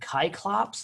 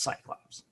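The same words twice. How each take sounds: First: The word begins with a hard K sound. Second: The word begins with a soft S sound. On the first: This follows the original Greek spelling. "the Greeks did not have a C, right? Uh, they had K's" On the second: This is the familiar everyday pronunciation. "I'm going to stick with what I know"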